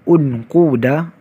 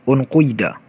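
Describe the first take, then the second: First: The vowel after the q is u. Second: The vowel after the q is between u and i. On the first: "Yang pertama, dhammah" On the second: "harakat di antara dhammah dan kasrah"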